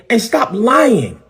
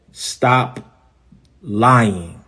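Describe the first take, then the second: First: High, drawn-out accusation; indignant demand. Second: Low, with a long gap between words; measured warning. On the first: Pastor calling out a rival's lies, high indignant demand. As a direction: pitch it up high and stretch "lying". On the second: Pastor calling out a rival's lies, slow measured warning. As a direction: say "Stop", wait, then let "lying" fall low. Repeats the accusation word by word. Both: Real, not acted.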